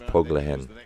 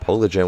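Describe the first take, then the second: First: The j is sounded like an English h. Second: The j is sounded like an English j. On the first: The speaker calls it right. "the J is pronounced like an H in Spanish" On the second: The speaker calls it wrong. "I'm sorry"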